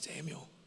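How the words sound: It is said softly with a longing, inviting tone. The caller longs for a relationship with the listener. "That's an indication of longing. ... It's invitational"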